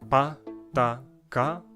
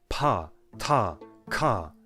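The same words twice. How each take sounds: First: The consonants are said without a puff of air. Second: The consonants are said with a puff of air.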